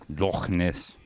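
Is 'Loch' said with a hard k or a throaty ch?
throaty ch. Loch ends in a throaty Scottish ch sound.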